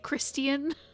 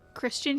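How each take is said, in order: First: The word is said with a British pronunciation. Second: The word is said with an American pronunciation. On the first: The speaker calls it wrong. "That's not the American way to say it" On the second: The speaker calls it right.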